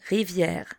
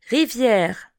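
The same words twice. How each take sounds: First: Rivière repeated softer and lower. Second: Rivière said clearly at full voice; teacher models Rivière for learners, clearly; model word. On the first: Teacher echoes Rivière quietly for the class. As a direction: softly echo Rivière. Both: Shown as a demonstration. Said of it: "Répétez après moi".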